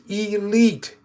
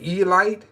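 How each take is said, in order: First: The word is said as 'ee-leet'. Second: The word begins with the sound of 'Eli'. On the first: The speaker calls it right. "come right back and tell you that it's" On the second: The speaker calls it wrong. "I'll say Elite, and I do this purposely"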